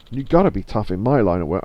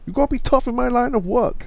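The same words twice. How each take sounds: First: Said in the usual way. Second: High-pitched mock Chinese accent. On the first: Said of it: "I could do a Chinese accent, I suppose, but I won't". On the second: Game character on their tough line of work, put-on Chinese accent. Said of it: "I could do a Chinese accent".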